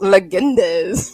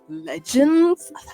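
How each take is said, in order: First: The word is said with an unusual extra ending. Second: The word is said with its usual two syllables. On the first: The speaker misread the stylized spelling. The speaker calls it wrong. "I remember one time I pronounced legends legendes because it was spelled with a Z" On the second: This is the correction. The speaker calls it right. "My friend's like"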